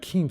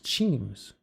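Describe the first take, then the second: First: The name starts with a k sound. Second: The name starts with a ch sound. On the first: The speaker calls it wrong. "It's not Keems" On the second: The speaker calls it right. "It's Cheems"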